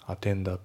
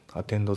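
The two takes are said the same way.

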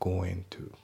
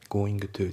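First: The final g of going is dropped. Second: The final g of going is pronounced. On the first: The speaker calls it right. "going のG が抜けますね" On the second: The speaker calls it wrong. "going to じゃなくて"

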